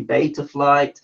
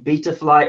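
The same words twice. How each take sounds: First: Beta is said the way Americans say it. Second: Beta is said in the speaker's own non-American way. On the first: The speaker calls it right. "it should be beta flight" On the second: The speaker calls it wrong. "I'm saying beta flight wrong"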